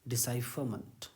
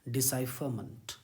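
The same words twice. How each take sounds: The two takes are said the same way.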